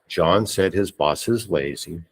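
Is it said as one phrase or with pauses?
one phrase. It is said as one smooth phrase.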